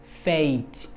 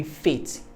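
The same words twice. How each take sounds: First: FAITH with a long e-to-i glide; gliding diphthong. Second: FAITH with a short single e, like "fet"; short pure vowel. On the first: Teacher giving students the correct form, long gliding FAITH. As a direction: draw the vowel of FAITH out into two sounds. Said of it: "but it's gonna be faith". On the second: Teacher showing what it shouldn't be, short pure-vowel FAITH. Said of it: "It's not gonna be faith". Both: Shown as a demonstration.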